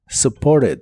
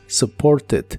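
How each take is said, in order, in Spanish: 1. El sonido T se omite. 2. El sonido T se pronuncia claramente. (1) "En inglés americano se suele pronunciar este verbo del pasado sin la T" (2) "aquí sí se pronuncian estas dos letras"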